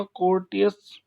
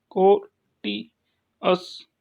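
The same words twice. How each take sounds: First: Said in the usual way. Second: courteous very slowly split as कोर, टि, अस; full pause between each syllable of courteous; syllable-by-syllable demo. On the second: Shown as a demonstration. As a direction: sound out courteous one syllable at a time. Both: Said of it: "second last पे stress लगाएंगे".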